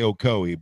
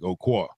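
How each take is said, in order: First: The name is said in a neutral accent. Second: The name is said in the local accent. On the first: This is how the speaker himself says it. "I say Ocoee" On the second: This is how most people from the town say it. "most of the people from Ocoee say more like Oquaw"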